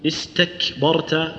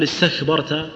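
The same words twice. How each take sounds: First: Slow "استكبرت" with ت and ك held before the breath escapes; in "استكبرت", shut off the sound on ك, then let breath flow; deliberate, segmented "استكبرت"; stop before the breath. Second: "استكبرت" run straight through, breath leaking with no stop on ك and ت; faulty "استكبرت" without the held closure; rushed, unstopped consonants. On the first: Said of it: "وتحبس الصوت ثم تجري النفس". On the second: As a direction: say "استكبرت" carelessly, ك softened into breath. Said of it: "ما تقول". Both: Shown as a demonstration.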